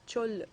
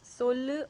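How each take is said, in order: First: The word starts with a ch sound. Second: The word starts with an s sound. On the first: "the same letter denotes the sound sa as well as cha" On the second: "the same letter denotes the sound sa as well as cha"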